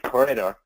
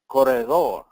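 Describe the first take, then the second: First: The name is said with an English accent. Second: The name is said with a Spanish accent.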